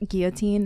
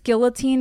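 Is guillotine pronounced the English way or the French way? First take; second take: French; English. First: The word is said with French sounds, silent L. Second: The word is said with English sounds and an L. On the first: The word is treated as a French word. "it's guillotine. It's a French word" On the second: The word is treated as an American word. "we speak American here. Two L's"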